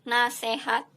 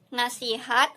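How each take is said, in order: First: The middle vowel sounds like e. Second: The middle vowel sounds like i. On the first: This is the non-standard form. The speaker calls it wrong. "bukan menggunakan huruf E" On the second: This is the standard form. The speaker calls it right. "menggunakan huruf huruf I"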